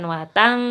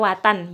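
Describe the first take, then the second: First: The n is nasalized and held longer. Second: The n is clear, short and not nasalized. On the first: The speaker calls it wrong. "Bukan watang" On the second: The speaker calls it right. "Dibaca watan biasa ya. Watan itu nah tanpa mendengung, tanpa ditahan"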